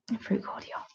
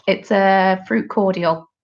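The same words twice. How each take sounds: First: Whispered. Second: Said in the usual way. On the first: Shown as a demonstration. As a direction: repeat it in a soft whisper. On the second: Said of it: "What is squash?".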